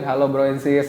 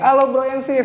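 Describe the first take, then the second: First: The greeting is flat and low in energy. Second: The greeting is lively and full of energy. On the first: The speaker sounds like falling asleep. The speaker calls it wrong. "kan nggak mungkin ... Tidur ya kan" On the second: The speaker sounds enthusiastic to the audience. The speaker calls it right. "itu kan biar semangat"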